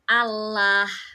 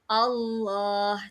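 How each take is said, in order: First: The L is pronounced thin and light. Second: The L is pronounced thick and full. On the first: The speaker calls it wrong. "itu jadi tarkik dong" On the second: The speaker calls it right. "tafkhim dulu"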